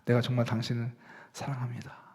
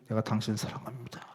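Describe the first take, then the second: First: It is said warmly, with a smile. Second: It is said coldly, without warmth.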